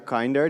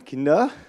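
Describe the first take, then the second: First: The first vowel sounds like in 'kind'. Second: The first vowel sounds like in 'kin'. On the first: More kind. The speaker calls it right. "the English way to pronounce it" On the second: Children. The speaker calls it wrong. "for all German-speaking people, we are kein Kinder"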